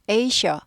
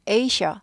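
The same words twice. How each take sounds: No difference in how they are said.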